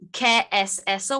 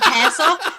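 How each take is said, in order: First: The three words are said slowly and separately. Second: The words are rushed together into one word. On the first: It asks what that is. The speaker calls it right. "he tried to say like a bit of Spanish" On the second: It sounds like the word for cheese. The speaker calls it wrong. "he kept saying it too quickly, so he kept saying queso"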